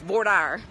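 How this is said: It is said in a Texas pronunciation.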